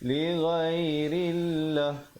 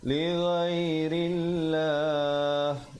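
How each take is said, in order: First: The final vowel is cut short at the stop. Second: The final vowel is held long before stopping. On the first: The speaker calls it wrong. "Jangan pula kita berhenti li ghairillah. Itu tak betul eh" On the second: The speaker calls it right. "sekurang-kurangnya dua, empat ataupun enam harakat"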